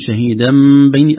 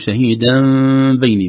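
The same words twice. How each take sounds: First: The lips close fully on the m sound. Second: The lips stay slightly open on the m sound. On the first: "أطبقنا إطلاقا كاملا" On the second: "إطلاق لطيف بفرجة خفيفة"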